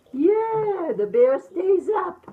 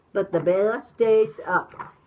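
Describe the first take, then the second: First: High-pitched, gleeful refrain; excited cheer. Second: Said in the usual way. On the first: Acted. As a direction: cheer it with a rising finish.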